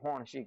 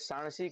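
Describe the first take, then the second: First: It starts with h and an o vowel. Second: It starts with s and a long a vowel. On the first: "એ હોણસી કહે" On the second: "આપણે સાણસી કહીએ"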